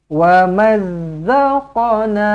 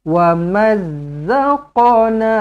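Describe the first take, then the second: The two takes are said the same way.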